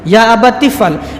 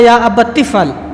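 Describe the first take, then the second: Both takes have the same delivery.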